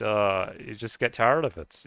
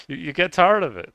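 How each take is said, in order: First: Said in the usual way. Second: Louder and higher, leaning on tired; emphatic louder repeat. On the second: Real, not acted. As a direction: push "tired" out loud and exasperated.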